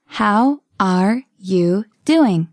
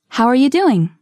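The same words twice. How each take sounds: First: Very slow, each word separate; slow model. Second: Said in the usual way. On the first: Shown as a demonstration. Teacher modelling a question for learners, very slowly. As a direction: pause between the words.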